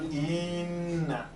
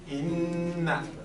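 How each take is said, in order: First: The first vowel is drawn out like an added ee. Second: The first vowel is short, straight into the n. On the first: The speaker calls it wrong. "not inna ... I added a ya" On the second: The speaker calls it right. "the proper way of saying it is inna"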